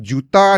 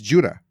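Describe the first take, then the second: First: The name is said with a Malaysian accent. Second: The name is said with an American accent. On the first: "dia macam bunyi Malaysian lah" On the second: "if we talk to Americans"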